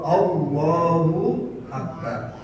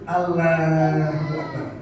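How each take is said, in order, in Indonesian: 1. Huruf l di Allah itu tebal. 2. Huruf l di Allah itu tipis. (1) "dibacanya tebal, tafhim" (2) "Jangan ... jelas jelas uh, keliru"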